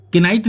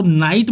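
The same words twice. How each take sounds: First: किनाइट with an extra ki before the n; wrong, k sounded. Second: नाइट starting straight on n; silent k. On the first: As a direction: say किनाइट as ki-nite. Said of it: "किनाइट नहीं". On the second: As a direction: say नाइट with no k before it. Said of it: "इसको नाइट बोला जाता है". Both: Shown as a demonstration.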